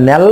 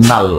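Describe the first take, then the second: First: ন্যাল with a front 'a', like 'nel'; ন্যাল, front-vowel variant; pronounced ন্যাল. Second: নাল with a long open 'aa'; নাল, back-vowel variant; pronounced নাল. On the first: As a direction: say ন্যাল as 'nyal', pitch rising. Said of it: "কেউ উচ্চারণ করে". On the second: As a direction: say নাল as 'naal'. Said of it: "কেউ উচ্চারণ করে কি". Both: Shown as a demonstration.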